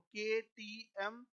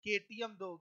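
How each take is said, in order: First: केटीएम stretched very slowly, letters apart; teacher stretching the mnemonic; drawn out. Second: Said in the usual way. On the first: Shown as a demonstration. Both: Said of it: "एक word बताया था".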